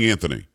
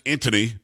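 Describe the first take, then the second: First: "Anthony" in the preferred form, likely with TH; corrected pronunciation. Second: "Anthony" as first tried, perhaps with a plain T; first pronunciation. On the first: Host corrects the guest's name on air, preferred pronunciation of "Anthony". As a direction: correct yourself to "An-thony". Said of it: "I think we're saying Anthony". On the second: Host names the guest on air, first pronunciation of "Anthony". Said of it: "although I think we're saying Anthony". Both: Shown as a demonstration.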